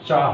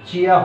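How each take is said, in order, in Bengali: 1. এটা একটা মিলিত অক্ষরে বলা হয়, cha। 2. এটা দুটো আলাদা অক্ষরে বলা হয়, chi-ya। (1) "চা হবে" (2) "এটা চিয়া হবে না"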